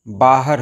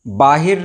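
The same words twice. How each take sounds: First: बाहर with short "a" after h; correct pronunciation. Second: बाहिर with "i" after h; wrong pronunciation. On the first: Teacher correcting the error for viewers, correctly pronounced. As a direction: say "baa-har" for बाहर. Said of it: "बाहर होता है". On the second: Teacher showing viewers the common error, mispronounced. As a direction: say "baa-hir" for बाहिर. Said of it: "बाहिर नहीं होता है". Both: Shown as a demonstration.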